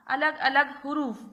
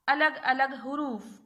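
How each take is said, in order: Both takes have the same delivery.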